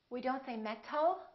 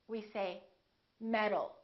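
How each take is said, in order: First: The T is a crisp, clear T sound. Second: The T is a soft, D-like tap. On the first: The speaker calls it wrong. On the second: The speaker calls it right. "the T changes into a D when it's between two vowels"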